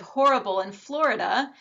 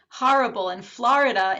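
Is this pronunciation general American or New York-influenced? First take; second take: general American; New York-influenced. First: The vowels follow a general American pronunciation. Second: The vowels follow a New York regional pronunciation. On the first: "instead of horrible in Florida" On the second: "I say horrible in Florida"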